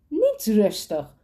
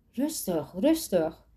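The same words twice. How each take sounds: First: Growled. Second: Said in the usual way. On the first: A narrator's reading. Amber threatens Sander with a knife, slow growl. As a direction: snarl it slowly, leaning on niet. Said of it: "gromde Amber".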